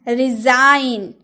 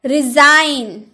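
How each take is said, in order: No difference in how they are said.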